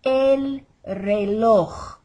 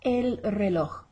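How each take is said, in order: First: Loud, drawn-out "reloj" ending in a harsh throat rasp; slow and exaggerated. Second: "reloj" with a light final j; slight throat tick. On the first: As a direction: overdo the j of "reloj" like coughing up phlegm. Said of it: "say it slowly and exaggerated". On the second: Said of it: "slight tick in the throat". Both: Shown as a demonstration.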